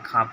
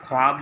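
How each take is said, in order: First: No 'w' sound follows the 'kh'. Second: A 'w' sound follows the 'kh'. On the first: This is how the word is actually read. "खाब पढ़ा जाता है" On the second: This is how the word is written. "ख्वाब लिखाता है"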